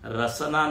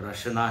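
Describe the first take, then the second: First: The middle consonant is a plain 's' sound. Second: The middle consonant is a 'sh' sound. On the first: The word means tongue. The speaker calls it wrong. "रसना नहीं है" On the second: The word means reins. The speaker calls it right. "तो रसना है"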